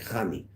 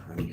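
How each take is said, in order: First: It begins with a rasping throat ch sound. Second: It begins with a plain, soft h sound. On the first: The speaker calls it right. "Americans can't say chet" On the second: The speaker calls it wrong. "not honey"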